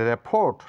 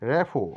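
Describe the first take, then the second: First: The word ends with a t sound. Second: The word ends without a t sound. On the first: The speaker calls it wrong. "নয়" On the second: The speaker calls it right. "এটা বলবো"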